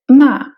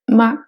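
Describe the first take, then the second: First: The syllable is said with a falling pitch. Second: The syllable is said short and light, unstressed. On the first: "c'est le ton descendant" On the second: "c'est le ton neutre"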